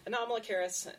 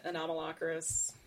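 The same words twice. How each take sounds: First: Anomalocaris as a-nom-a-lo-KAIR-is, pitched up; CARIS pronunciation. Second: Anomalocaris as a-nom-a-LOCK-a-ris; alternative pronunciation. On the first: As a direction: say Anomalocaris with KAIR stressed near the end. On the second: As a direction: say Anomalocaris with LOCK stressed mid-word. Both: Shown as a demonstration. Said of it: "one of those two pronunciations".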